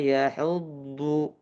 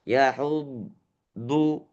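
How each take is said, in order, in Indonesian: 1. Bunyinya berlanjut tanpa putus. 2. Bunyinya putus di antara hu dan du. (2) "itu putus"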